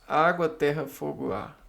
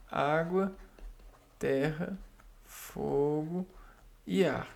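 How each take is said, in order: First: Said in the usual way. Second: Água, terra, fogo, ar each set apart with a small rise; spaced-out list. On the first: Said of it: "O que que são os quatro elementos". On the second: Shown as a demonstration. Teacher counting the four elements for students, spaced with rises. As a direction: count them off one at a time, lifting each. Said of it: "os quatro elementos".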